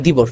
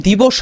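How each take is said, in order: First: দিবস said "dibosh", ending closed on "sh" with no vowel; correct pronunciation. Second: দিবস said "dibosho", with an open vowel after the final স; wrong pronunciation. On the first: Teacher gives students the right দিবস, ending on a closed "sh". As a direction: cut দিবস off on a bare "sh" with no vowel after it. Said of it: "ছেড়ে দেওয়ার কারণে আমার উচ্চারণ হচ্ছে দিবস". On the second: Teacher shows students the wrong দিবস, with a final "o" sounded. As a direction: give দিবস a full "o" at the end, the way it should not be said. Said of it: "আমি যদি বলতাম দিবস".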